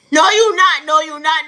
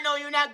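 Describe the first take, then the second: First: Much louder, higher no; loud refusal. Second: Said in the usual way. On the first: Acted. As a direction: bark the refusal. Rejecting the driver's prayer threat.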